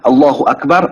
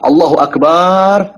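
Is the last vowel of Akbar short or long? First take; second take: short; long. First: The last vowel of Akbar is short. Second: The last vowel of Akbar is drawn out. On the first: God is the greatest. The speaker calls it right. "Allah Maha Besar" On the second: The meaning is changed into something wrong. The speaker calls it wrong. "Allah itu darah"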